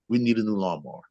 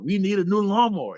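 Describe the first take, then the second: First: It is said at a calm, normal volume. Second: It is said loudly, with a raised voice.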